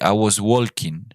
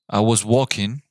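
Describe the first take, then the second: First: The word walking has an audible L sound. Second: The word walking has no L sound. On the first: The speaker calls it wrong. "you don't say I was walking" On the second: The speaker calls it right. "You don't pronounce the L"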